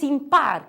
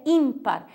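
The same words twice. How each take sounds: First: Impar said slowly, im-PAR; Spanish stress. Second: Ímpar said ÍM-par; Portuguese stress. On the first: Teacher giving the next Spanish example, impar stressed on PAR. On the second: Teacher giving the Portuguese form, ímpar stressed on IM. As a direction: lean on IM in ímpar. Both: Shown as a demonstration. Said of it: "em português é ímpar".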